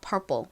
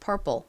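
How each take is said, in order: The two takes are said the same way.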